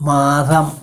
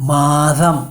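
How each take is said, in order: The two takes are said the same way.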